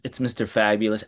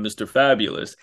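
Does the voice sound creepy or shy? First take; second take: shy; creepy. First: The name is said shyly, almost apologetically. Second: The name is said in a creepy, showy way. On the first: The speaker is embarrassed by the name. "I was very, very shy about it and almost apologizing to people" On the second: The name sounds like a boastful come-on. "it's just creepy. And he was like, well, don't say it like that"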